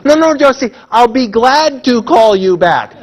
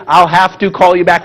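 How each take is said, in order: First: Loud, slow teasing correction stressing glad; mock correction. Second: Said in the usual way. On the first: Audience jokingly correcting a caller, loud and slow. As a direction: chant it back like a whole room correcting Josie. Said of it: "we're all gonna say". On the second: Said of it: "when you say".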